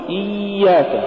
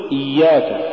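First: إياك with a long high droning ي; overdone ya. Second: Said in the usual way. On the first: Shown as a demonstration. Teacher warning against exaggeration, overlong ي in إياك. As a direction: drag out the doubled ي in إياك. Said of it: "ولا تقل". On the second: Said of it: "قل إياك".

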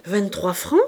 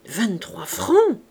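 First: "Vingt-trois francs" as a question, rising on FRANCS; shorter, questioning "Vingt-trois francs?". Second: "Vingt-trois francs" drawn out slowly as an exclamation; stretched, astonished "Vingt-trois francs!". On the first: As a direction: query "Vingt-trois francs", lifting the last word. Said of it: "du point d'interrogation". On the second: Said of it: "l'accent qui sépare le point d'exclamation". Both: A narrator's reading.

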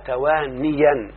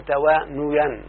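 First: توانيا said "tawaa-niyan", with an i after the n; correct kasra form. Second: توانيا said "tawaa-nuyan", with a u after the n; rejected damma form. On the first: Teacher giving the correct verbal noun, توانيا slowly as "tawaaniyan". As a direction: draw out توانيا as tawaa-NI-yan. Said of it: "أقول توانى". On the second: Teacher showing what we don't say, توانيا as "tawaanuyan". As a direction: draw out توانيا as tawaa-NU-yan. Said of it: "ولا نقول توانيا". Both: Shown as a demonstration.

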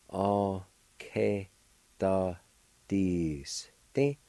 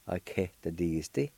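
First: "A, K, da, D, S, T" broken into separate syllables. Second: Said in the usual way. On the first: Shown as a demonstration. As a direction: sound out "A, K, da, D, S, T" with short gaps. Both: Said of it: "It's pronounced like this".

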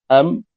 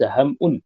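First: حمو split as ham-wun; hamza replaced by waw. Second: حمء said ham-'un with a glottal stop; hamza, not waw. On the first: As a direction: clear w after a closed m in حمو. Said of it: "واوا". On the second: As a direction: catch the throat after the m in حمء, then -un. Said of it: "وليس". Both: Shown as a demonstration.

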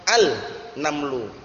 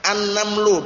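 First: Slow "al-namlu" with a split after the l; drawn-out unassimilated "al-namlu"; wrong clear al. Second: "An-namlu" in one go with a held double n; "An-namlu", no l in the article; silent lam. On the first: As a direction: say "al", break, then "namlu". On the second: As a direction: slide from the a straight into a long n in "An-namlu". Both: Shown as a demonstration.

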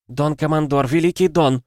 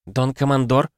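First: High, urgent appeal; audible panic. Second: Higher, tentative rising question; lightly voiced unsure woman; uncertain woman. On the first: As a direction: plead with the commander in rising panic. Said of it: "теперь ощутимо слышалась паника". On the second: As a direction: address the commander hesitantly. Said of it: "неуверенно проговорил женский голос". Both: A narrator's reading.

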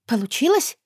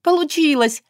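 First: Unsure surprised question, rising high; can't believe it worked, asking; breathless astonished question; surprised disbelief. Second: It worked, shout it with joy; bursting elated exclamation; joyful exclaim. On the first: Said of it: "воскликнула удивлённо, сама не веря". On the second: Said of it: "воскликнула удивлённо". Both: A narrator's reading.

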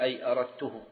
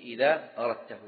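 First: أردته said "aradtuhu", u after the ta; first-person u vowel in أردته; damma on the ta. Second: أردته said "aradtahu", a after the ta; second-person a vowel in أردته; fatha on the ta. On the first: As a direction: end أردته in "-tuhu". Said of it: "إذا أتت أي فالضم". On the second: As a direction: end أردته in "-tahu". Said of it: "وتقول". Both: Shown as a demonstration.

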